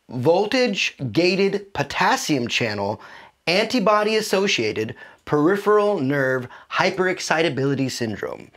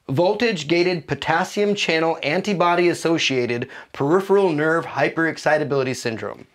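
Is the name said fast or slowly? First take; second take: slowly; fast. First: The name is said slowly and deliberately. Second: The name is said at a quicker pace.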